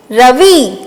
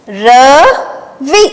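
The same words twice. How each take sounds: First: Said in the usual way. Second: Very slow, syllables drawn out; slow dictation. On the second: Shown as a demonstration. Teacher revising dictation words, very slowly. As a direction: stretch it for the class. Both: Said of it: "चलिए अब हम इन्हें फिर से दोहराते हैं।".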